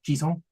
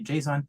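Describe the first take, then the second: First: It is pronounced the French way. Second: It is pronounced the English way. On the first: "as a French speaker, I also would say JSON, which sounds to me a lot better" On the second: "in English, you might say JSON"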